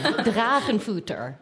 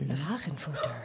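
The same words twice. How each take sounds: First: The word is said at normal loudness. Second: The word is said more softly.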